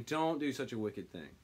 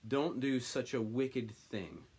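First: Said in the usual way. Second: Slow, earnest plea, stress on don't; mild begging. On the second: Acted. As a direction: ask them gently not to. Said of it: "he begged".

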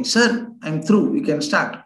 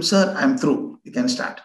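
First: A little louder. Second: Said in the usual way. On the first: Retold or imitated. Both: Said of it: "I said little loudly".

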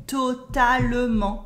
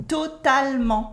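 First: "totalement" as "to-ta-le-ment"; wrong full schwa. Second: "totalement" as "to-tal-ment"; dropped French E. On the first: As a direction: sound the E after L in "totalement". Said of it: "We never say totalement". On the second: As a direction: cut the E after L in "totalement". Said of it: "We cut the E and say". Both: Shown as a demonstration.

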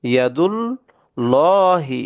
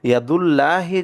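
First: ইয়াদুল্লাহি slow, thick lam with rounded o; right way, heavy lam; correct heavy lam. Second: ইয়াদুল্লাহি said quickly with a thin lam and open a; wrong light lam. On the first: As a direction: recite ইয়াদুল্লাহি heavy, as it should be. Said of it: "মোটা করে পড়বো". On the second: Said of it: "তাহলে সেটা ভুল হবে". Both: Shown as a demonstration.

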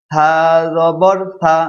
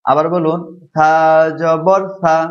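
First: Said in the usual way. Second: থা in জবর থা said soft and light; soft tha. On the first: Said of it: "একটু নরম". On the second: Shown as a demonstration. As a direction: keep থা gentle, no hard t. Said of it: "নরম করে বলুন". (নরম উচ্চারণে থা)

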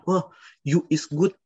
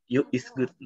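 First: Slow, higher voice praising in broken English; hammed-up learner voice; mock eager local speaking wrong grammar; local's broken English. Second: Said in the usual way.

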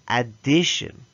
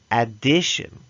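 The two takes are said the same way.

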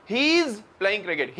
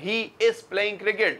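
First: He is blended into one quick hiz; British-style contraction. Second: Said in the usual way. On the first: Shown as a demonstration. Teacher shows students the British way, blended he is. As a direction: run he is together the British way. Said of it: "British कह रहे हैं". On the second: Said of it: "हम बोल रहे हैं".

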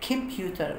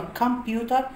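First: American "كمبيوتر" with the t softened toward d. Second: British "كمبيوتر" with a crisp, clear t. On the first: Teacher shows students the American "كمبيوتر". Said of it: "امريكان". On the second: Teacher shows students the British "كمبيوتر". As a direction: say "كمبيوتر" the British way, t fully sounded. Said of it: "دي تبقى بريتش". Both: Shown as a demonstration.

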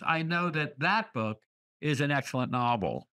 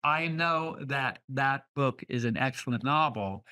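First: Second "that" stressed, first "that" passed over lightly. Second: Said in the usual way. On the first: Shown as a demonstration. Teacher shows how repeated words need changed emphasis, stressing the second "that". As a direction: lean on the second "that" in "that that book". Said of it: "you have to change emphasis". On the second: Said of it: "when you're speaking that line".

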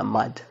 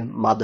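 First: মাদ with the final দ held on the palate; আরবি accent. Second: মাদ with an ordinary released Bangla দ; Bangla-style pronunciation. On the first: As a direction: press the tongue up to close মাদ. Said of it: "জিহ্বার উপরে লাগিয়ে রাখলে এরকম sound আসবে". (জিভ তালুতে লাগিয়ে আরবি ধাঁচে মাদ) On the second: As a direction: say মাদ with the tongue let go on a plain দ. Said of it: "এই যে মাদ না". (বাংলা ধাঁচের সাধারণ দ দিয়ে মাদ) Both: Shown as a demonstration.

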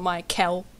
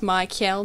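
First: "Michael" said the way people wrongly say it; the common mistaken "Michael"; wrong pronunciation. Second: "Michael" said the way the speaker insists is right; "Michael" as she says it should sound; correct pronunciation. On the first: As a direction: mimic how everyone mispronounces "Michael". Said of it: "not Michael". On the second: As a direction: give "Michael" its proper pronunciation. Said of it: "It's actually pronounced Michael". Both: Shown as a demonstration.

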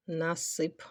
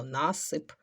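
First: Насип with the stress on the final сип; stress on second syllable. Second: Насип with the stress on the opening на; stress on first syllable. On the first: Teacher shows pupils one allowed stress, насип stressed on the last syllable. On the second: Teacher shows pupils the other allowed stress, насип stressed on the first syllable. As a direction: lean on НА in насип. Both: Shown as a demonstration. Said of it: "і так наголос".

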